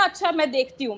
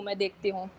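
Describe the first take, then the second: First: Said in the usual way. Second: Dropped low and soft, half to herself; quiet stalling mutter to the scammer; trailing off quietly. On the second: Retold or imitated. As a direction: let the repeat fade away, stalling. Brushing off the caller, repeated.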